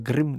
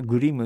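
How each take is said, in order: First: It is said with a German pronunciation. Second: It is said with a Japanese pronunciation. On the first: "ドイツ語で発音するとグリムなんですよ" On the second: "日本語じゃグリムっていうじゃない"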